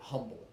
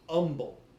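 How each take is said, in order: First: The word starts with an audible H sound. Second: The word starts with no H sound. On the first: The speaker calls it wrong. "they get fighting mad if you pronounce it humble" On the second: The speaker calls it right. "It is umble. the H is silent"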